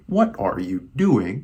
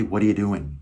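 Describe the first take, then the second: First: "What are you doing" slowly, word by word; careful, slow textbook "What are you doing"; textbook English. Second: "What are you doing" run together casually; relaxed, linked-up "What are you doing"; casual American flavor. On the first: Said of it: "Like the textbook English". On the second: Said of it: "Really put in that flavor". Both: Shown as a demonstration.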